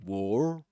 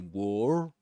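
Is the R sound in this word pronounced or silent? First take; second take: pronounced; pronounced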